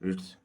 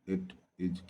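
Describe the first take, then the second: First: The words are joined into one short syllable. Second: Two separate full words are said.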